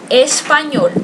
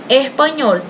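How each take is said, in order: First: The s sound is pronounced fully. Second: The s sound is breathed like an h. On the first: "na língua espanhola se diz assim, espanhol, essa é a pronúncia" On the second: "Eles aspiram a S"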